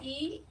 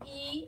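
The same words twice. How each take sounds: First: The vowel is held for one short beat. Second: The vowel is held for two beats.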